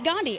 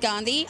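First: The d is a hard English d. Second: The d is soft, like 'th' in 'the'. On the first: This is how Americans say the name. "Americans say Gandhi" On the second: This is how the name's owner says it. "It is pronounced Gandhi with like a the sound"

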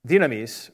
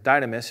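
First: The word is said with a Greek pronunciation. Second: The word is said with an English pronunciation.

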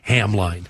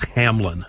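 First: The second syllable has a long 'eye' vowel. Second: The second syllable has a short 'ih' vowel. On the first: The speaker calls it wrong. "If I just write Hamline, I'll pronounce it every single time" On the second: The speaker calls it right. "It's Hamlin"

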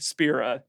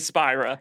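First: The name does not sound like 'Spyro'. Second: The name sounds like 'Spyro'. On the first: The speaker calls it wrong. "Don't say Spira. That's a mistake" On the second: The speaker calls it right. "Say Spira. ... it's like Spyro the Dragon"

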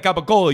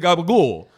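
First: All syllables are said in the standard way. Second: It is voiced and clipped, New Jersey style. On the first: "You don't say capicola" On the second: "It's when you're from New Jersey and you fucking talk like this"

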